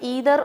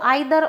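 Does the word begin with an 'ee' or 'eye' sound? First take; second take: ee; eye. First: The first vowel sounds like 'ee'. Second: The first vowel sounds like 'eye'. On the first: The speaker calls it right. "आपको इनको बोलना है ईदर और नीदर" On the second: The speaker calls it wrong. "पुरानी English में इनको आइदर और नाइदर pronounce किया जाता था, जो कि गलत है"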